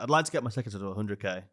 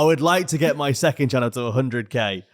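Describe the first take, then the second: First: The sentence is spoken very quickly. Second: The sentence is spoken slowly and clearly.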